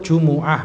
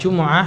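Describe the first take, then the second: First: The m is followed by a u vowel. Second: The m has no vowel after it. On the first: The speaker calls it right. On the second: The speaker calls it wrong.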